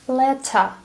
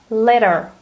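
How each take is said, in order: First: The middle t is a crisp t. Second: The middle t sounds like a soft d. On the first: "British English sounds completely different" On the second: "compare American to British accent"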